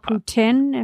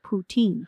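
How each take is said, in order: First: It is said with a French pronunciation. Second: It is said with an English pronunciation.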